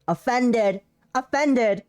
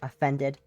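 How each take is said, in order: First: Offended. barked higher and louder with a falling end; hammed-up indignant Offended; loud mock offended. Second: Said in the usual way. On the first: Shown as a demonstration. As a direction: cry out Offended. in mock hurt.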